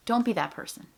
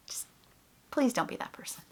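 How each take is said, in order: First: Said in the usual way. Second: Breathy near-whisper, softer, begging; pleading whisper. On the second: Real, not acted. Begging fellow puppeteers not to do it, whispered. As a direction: ask it quietly, almost under your breath.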